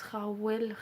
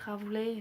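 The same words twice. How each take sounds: First: Rawley pronounced "ra-WEL", w in the middle. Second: Rawley pronounced "rav-lay", ending in an é sound. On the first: Vlogger unsure of a wrestler's name, Rawley said "ra-wel". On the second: Vlogger trying another reading of the name, Rawley said "rav-lay". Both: Shown as a demonstration. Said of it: "je sais pas si ça se prononce".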